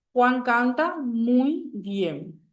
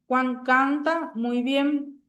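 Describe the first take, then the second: First: "Juan canta muy bien" slow, stress on Juan; slow example again. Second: "Juan canta muy bien" said slowly, word by word; slow example read. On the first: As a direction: read the sentence slowly, leaning on Juan. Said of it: "Entonces la palabra muy". (lectura lenta del ejemplo) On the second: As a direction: spell out the example sentence slowly. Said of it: "En la oración". (lectura lenta y pausada) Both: Shown as a demonstration.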